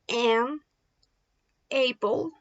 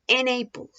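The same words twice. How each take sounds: First: The two words are said separately. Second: The n sound joins onto the next word. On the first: The speaker calls it wrong. "You don't say an apple" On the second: The speaker calls it right. "You can say an apple"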